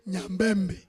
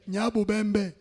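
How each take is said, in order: First: The name is shortened to three syllables. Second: The name is said in full, with four syllables. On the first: This is how a foreign newcomer said the name. The speaker calls it wrong. "il a prononcé Nyambembe" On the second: This is the original local form of the name. The speaker calls it right. "Nos ancêtres parlaient de Nyabubembe"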